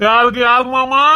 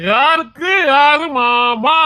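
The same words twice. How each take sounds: First: Said in the usual way. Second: High, slow, drawn-out challenge; indignant challenge. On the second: Acted. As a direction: stretch it out in drunken indignation. Drunk man indignantly rejects being called uncle.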